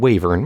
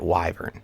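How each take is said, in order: First: The first syllable sounds like 'way'. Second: The first syllable sounds like 'why'. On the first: The speaker calls it wrong. "I've been saying Wavern wrong the whole time" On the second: The speaker calls it right. "You'd pronounce it like that"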